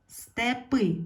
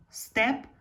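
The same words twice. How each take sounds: First: Степи with a high, loud final И; stress on last syllable. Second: Степ as one stressed, higher syllable. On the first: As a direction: lean on the И in степи. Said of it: "треба змінити слово так". (наголос на И в кінці слова степи) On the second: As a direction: hit the Е in степ. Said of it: "стало наголошеною". (наголос на Е у слові степ) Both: Shown as a demonstration.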